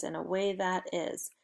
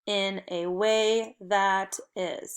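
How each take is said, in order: First: Said in the usual way. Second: Slow, measured choral reading; word by word. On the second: Shown as a demonstration. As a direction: say it slowly so the class can join in. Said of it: "let's do it together".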